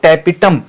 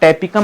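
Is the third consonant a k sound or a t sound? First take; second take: t sound; k sound. First: The third consonant is a t sound. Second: The third consonant is a k sound. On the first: The speaker calls it right. "टैपिटम बोलते हैं शायद" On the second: The speaker calls it wrong. "टैपिकम नहीं"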